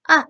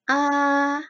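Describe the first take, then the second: First: The vowel sounds sharp and angry. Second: The vowel carries the first tone. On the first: "nada empat, saya suka menyebutnya dengan nada marah" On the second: "dari nada satu sampai empat"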